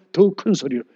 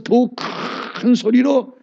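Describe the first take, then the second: First: Said in the usual way. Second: 큰 lifted higher and drawn out; raised pitch on 큰. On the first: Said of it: "음을 하나 올리는 게 아니라". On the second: Shown as a demonstration. Preacher showing how to raise the cry, 큰 lifted and stretched. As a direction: stretch 큰 upward after a held 더. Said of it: "한 옥탑으로 올려버리는 거예요".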